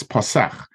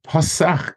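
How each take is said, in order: First: "pasach" as pa-SACH; end-stressed "pasach", falling; stress on second syllable. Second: "pasach" as PA-sach; front-stressed "pasach", pitch lifted; stress on first syllable. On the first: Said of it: "when it's a verb". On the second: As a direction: hit the opening syllable of "pasach". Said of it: "is on the pei". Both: Shown as a demonstration.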